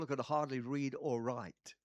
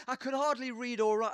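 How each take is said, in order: First: Said in the usual way. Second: "I could hardly read or write" said loud, HARDLY pushed up and stressed; a louder, higher, insistent admission; emphatic. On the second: Shown as a demonstration. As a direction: hit hardly hard, nearly a shout.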